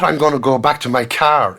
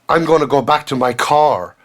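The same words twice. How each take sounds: First: The vowel in 'car' is an open ah sound. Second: The vowel in 'car' is a rounded aw sound. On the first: It follows the traditional Irish way. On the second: It follows the newer, American-influenced way. "an aw sound"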